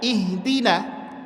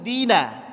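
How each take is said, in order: First: The word begins with an audible 'i' sound. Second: The opening 'i' is dropped and joined on. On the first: Reading starts from this word. "makanya di sini kita baca ihdina" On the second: The word is joined to the preceding word. "Tapi kalau kita wasalkan ... Hilang hamzahnya"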